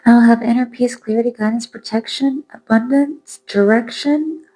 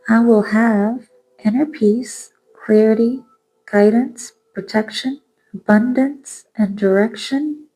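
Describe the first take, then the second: First: It is said at a quicker pace. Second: It is said at a slower pace.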